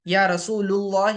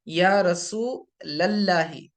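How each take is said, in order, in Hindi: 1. पहले L के बाद 'u' स्वर है। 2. पहले L के बाद 'a' स्वर है। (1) "लाम के ऊपर पेश नहीं पढ़ना" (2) "रसूल के लाम के ऊपर जबर"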